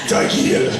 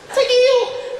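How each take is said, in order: First: It is said in a deep voice. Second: It is said in a high voice.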